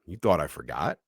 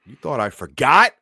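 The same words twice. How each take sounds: First: Lightly voiced monster taunt; low creepy rising question; low menacing taunt. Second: Loud, higher menacing shout; hammed-up monster cry; loud, higher rising threat; loud taunt. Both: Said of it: "throws open the door".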